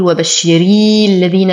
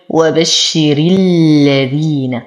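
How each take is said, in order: First: وبشري الذين with the ra stretched into an extra ya; wrong stretched ra. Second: Slow recited وبشر الذين, hamza dropped in linking; وبشر الذين joined smoothly, hamzat al-wasl silent; tajweed recitation. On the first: Teacher demonstrates the error to avoid. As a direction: drag out the ra of وبشري as a mistake. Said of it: "لا أمطط الراء، فلا أقول". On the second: Teacher models the correct linking for students. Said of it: "انتقل من كسرة الراء إلى تجديد اللام". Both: Shown as a demonstration.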